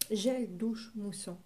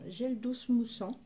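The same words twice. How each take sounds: First: Said in the usual way. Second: "douche" slipped into "dousse", with an s sound; slip of the tongue. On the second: Real, not acted. Reading a shower gel label aloud, tongue slips on "douche". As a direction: say "douche" as "dousse", ending on a hiss of s.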